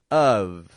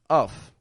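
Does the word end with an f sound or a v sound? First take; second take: v; f. First: The word ends with a voiced v sound. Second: The word ends with an unvoiced f sound. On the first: The speaker calls it right. "But the second, of" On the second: The speaker calls it wrong. "they'll pronounce it just how it's spelled"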